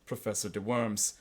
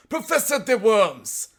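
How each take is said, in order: First: Matter-of-fact policeman; civil, unexcited official. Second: Put-on loud, high German-accented proclamation; hammed-up German cry, drawn out. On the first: Retold or imitated. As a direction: state it evenly and politely. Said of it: "he said civilly". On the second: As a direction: announce it grandly in shrieky German accent. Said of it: "cried in a high German accent".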